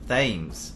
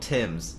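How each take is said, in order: First: The word begins with a soft 'th' sound. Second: The word begins with a plain 't' sound. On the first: The speaker calls it wrong. "I always pronounced it as th- uh" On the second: The speaker calls it right.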